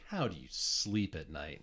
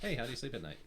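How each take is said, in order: First: It is said in an ominous, threatening tone. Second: It is said in a light, casual tone.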